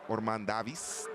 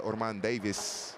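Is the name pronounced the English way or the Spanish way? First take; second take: Spanish; English. First: The name is pronounced with Spanish sounds. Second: The name is pronounced with English sounds.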